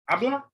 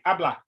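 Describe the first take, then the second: First: It is said with an unsure, questioning tune. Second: It is said as a plain statement. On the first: It asks whether they speak. "like you're unsure" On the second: It tells them they speak. "that means you speak"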